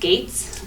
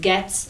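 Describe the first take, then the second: First: The name is said with a long vowel, like 'gates'. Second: The name is said with a short vowel, like 'gets'. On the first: This is how the family says the name. "we pronounce it Gates" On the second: This is how other people say the name. "some people pronounce it Götz, Getz"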